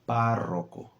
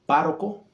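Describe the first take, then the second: First: The R is a longer rolled trill. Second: The R is a single quick tap. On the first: The speaker calls it right. "let's try" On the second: The speaker calls it wrong. "Instead of"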